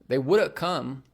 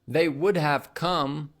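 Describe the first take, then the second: First: Would have is blended into woulda. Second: Would have is said fully, both words clear. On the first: "would have becomes woulda. / we'll say" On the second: "So instead of saying"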